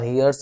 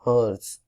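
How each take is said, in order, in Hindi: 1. यह शब्द 'hear' जैसे शुरू होता है। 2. यह शब्द 'her' जैसे शुरू होता है। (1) "हियर्स बिल्कुल मत बोलना, कुछ लोग इसे H E A R" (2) "it's हर्स"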